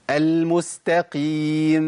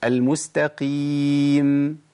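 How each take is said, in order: First: المستقيم ending in an added vowel like يم; wrong mim demo. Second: المستقيم with a clean closed م at the end; correct mim demo. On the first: Teacher showing the wrong reading of المستقيم, drawn out. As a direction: let المستقيم end with a vowel after the م. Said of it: "ما أقولش يم". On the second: Teacher showing the right ending of المستقيم, drawn out. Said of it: "ولا أقول م". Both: Shown as a demonstration.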